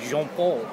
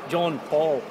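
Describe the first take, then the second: First: The name is pronounced the French way. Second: The name is pronounced the English way. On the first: The speaker calls it wrong. "I say it with a French style, and I shouldn't really" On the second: The speaker calls it right. "It should be John Paul"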